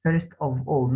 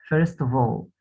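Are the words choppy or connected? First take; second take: choppy; connected. First: The words are cut apart with breaks. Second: The words run together without breaks. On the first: The speaker calls it wrong. "ما نقطعش الكلام ما نقولش" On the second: The speaker calls it right. "على بعض"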